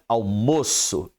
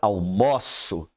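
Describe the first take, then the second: First: The stressed o vowel is closed. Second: The stressed o vowel is open. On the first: It is the noun, the lunch. "Uma pronúncia almoço fechado" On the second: It is the verb, I have lunch. "a outra pronúncia aberta almoço"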